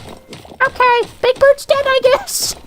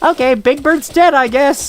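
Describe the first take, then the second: First: It is said in a put-on puppet character voice. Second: It is said in a plain, normal speaking voice.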